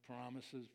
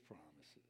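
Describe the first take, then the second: First: Said in the usual way. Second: Promises dropped low and soft, sneering; scoffing promises, almost under the breath; cynical. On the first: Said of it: "Do you hear the change in my voice?". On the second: Shown as a demonstration. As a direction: say promises like a jaded skeptic. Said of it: "It's the change of a skeptic, of a cynic".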